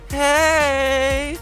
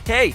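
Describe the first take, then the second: First: The word is said long and drawn out. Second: The word is said short and clipped. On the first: The speaker may be a little drunk. "The elongation of the second one" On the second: The speaker is to be taken seriously. "you're more likely to take me seriously if I say hey"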